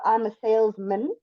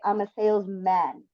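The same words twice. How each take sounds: First: The last syllable is reduced, like min. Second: The last syllable is full, like man. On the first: "we usually pronounce it like min, almost like M I N" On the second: "or you can say"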